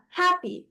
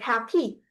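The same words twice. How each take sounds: First: The stress is on the first syllable. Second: The stress is on the second syllable. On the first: The speaker calls it right. "you would put more of your breath into the first word, into the first sound" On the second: The speaker calls it wrong. "you wouldn't say something like happy. It's wrong"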